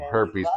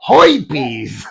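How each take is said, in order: First: It is said in a standard accent. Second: It is said in a Brooklyn/Bronx accent.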